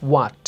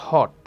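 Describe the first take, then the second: First: "what" starting with a w glide, no h; "what" opened with a clear wa sound; correct pronunciation. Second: "hot" in place of what, with an h start; "hot" as the learner's error; wrong pronunciation. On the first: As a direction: model "what" as wa plus t. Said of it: "উচ্চারণটা হবে প্রথমে ওয়া". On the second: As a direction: show the mistake "hot", no w glide. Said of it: "not hot". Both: Shown as a demonstration.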